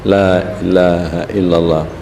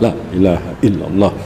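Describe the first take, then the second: First: It is slow, with the first syllable drawn out. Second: It is quick, with the syllables kept short. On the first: "la dipanjangkan dua alif paling kurang" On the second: "Cara cepat mah"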